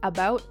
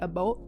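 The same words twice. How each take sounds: First: It has a broad, open American-sounding vowel. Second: It has a raised, Canadian-sounding vowel. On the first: The speaker calls it right. "you have to say like about and like make the a the biggest thing" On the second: The speaker calls it wrong. "and not the about"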